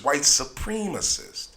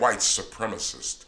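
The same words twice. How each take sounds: First: Supremacist is said with 'supreme' clearly brought out. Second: Supremacist is said the usual way, 'supreme' blurred.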